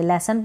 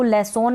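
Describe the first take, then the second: First: लेसन ending in a short neutral "sun"; सही उच्चारण लेसन; correct pronunciation. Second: लेसोन ending in a full "son" with "o"; the version to avoid, लेसोन; गलत उच्चारण लेसोन; wrong pronunciation. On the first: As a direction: end लेसन with a schwa. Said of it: "लेसन पढ़ेंगे". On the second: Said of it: "नहीं पढ़ेंगे". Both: Shown as a demonstration.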